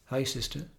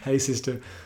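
First: It is said with an attempted New Zealand accent. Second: It is said in the speaker's ordinary accent.

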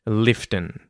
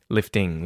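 First: The ending is reduced to a schwa and n. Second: The ending is a full 'ing' sound. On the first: "you'll hear them really reduce that second syllable" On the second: "instead of lifting"

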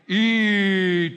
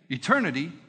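First: It is said big and drawn out. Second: It is said plainly and small.

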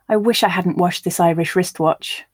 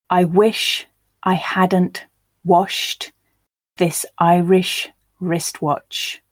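First: The line is said at natural pace. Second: The line is said slowly. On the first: "Then I'll read it at a more natural pace" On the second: "I'll read it first slowly for you to grasp the words"

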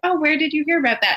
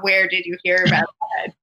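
First: It sounds warm and curious. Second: It sounds alarmed and accusatory.

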